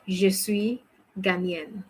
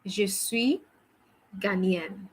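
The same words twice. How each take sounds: The two takes are said the same way.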